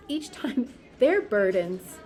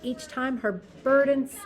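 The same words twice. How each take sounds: First: Slow, laughing correction; laughing at own slip. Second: Said in the usual way. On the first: Real, not acted. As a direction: laugh through the fixed word.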